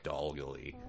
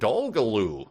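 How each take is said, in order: First: The name is said the way locals say it. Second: The name is said the way outsiders say it. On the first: The speaker is from the area. The speaker calls it right. "we call it Dolgalee" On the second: The speaker is not from the area. The speaker calls it wrong. "if you're from out of town, you'd go"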